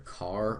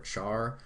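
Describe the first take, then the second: First: The word begins with a hard k sound. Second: The word begins with a ch sound. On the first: "You can pronounce this either car" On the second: "or char"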